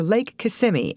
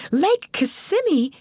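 First: Said in the usual way. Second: High, drawn-out astonished echo; surprised. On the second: A narrator's reading. Alice interrupting manager at the lake's name, surprised. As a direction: exclaim the name slowly in high-pitched surprise. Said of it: "exclaimed Alice DeVere in surprise".

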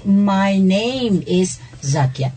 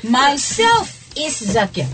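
First: Very slow, measured model sentence at an even pitch; slow correct model. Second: Slow and higher, deliberate quoted error; slow example sentence. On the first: Teacher telling students what to say instead, slow and measured. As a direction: give the correct sentence word by word. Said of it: "You say". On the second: Teacher repeating the faulty introduction for students, slow and deliberate. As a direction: raise the pitch and spell out each word slowly. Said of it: "I'm gonna say the, the, the statement". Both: Shown as a demonstration.

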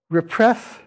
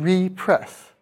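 First: Said in the usual way. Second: "repress" as re-press, with a long, stressed REE; slow "repress", full ee vowel in the prefix. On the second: Shown as a demonstration. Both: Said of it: "but we say it differently".

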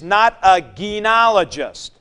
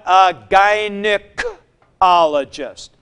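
First: Gynecologist with a j sound as the wrong form. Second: Gynecologist with a hard g, guy-nuh, slow and stressed; right gynecologist. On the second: Teacher giving the right form, gynecologist slow with a hard g. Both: Shown as a demonstration. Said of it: "not a gynecologist, but a gynecologist".

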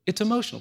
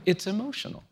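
First: "emotional" stressed, with a firm falling close; firm restatement. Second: Emotional said with a rising, questioning tune; tentative rise. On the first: Insisting to the host that it is emotional, firm fall. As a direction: land hard on "emotional", settling the point. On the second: Telling the host that it gets emotional, rising tune. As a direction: float "it's emotional" up at the end, as if testing it. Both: Real, not acted.

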